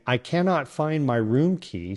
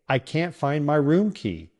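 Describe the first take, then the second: First: The word cannot is said in full. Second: The word cannot is contracted to can't. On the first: The speaker calls it wrong. "Instead of saying" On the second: The speaker calls it right. "It's much smoother and faster"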